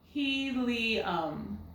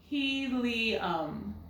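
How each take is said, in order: First: The middle vowel is an ee sound. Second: The middle vowel is an ee sound.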